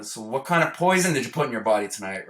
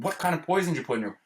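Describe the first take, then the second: First: Said in the usual way. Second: Fast, higher, pressing retold question; impatient repeat. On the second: Father repeating his question after the spoon hit, fast and impatient. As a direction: snap the question again, impatient.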